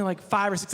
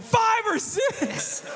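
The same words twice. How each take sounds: First: Said in the usual way. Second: Much higher, very slow, laughing shout of disbelief; stunned laughing echo. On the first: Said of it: "He's like". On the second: Real, not acted. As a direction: echo it back, floored and cracking up. Incredulous repeat of kid's answer.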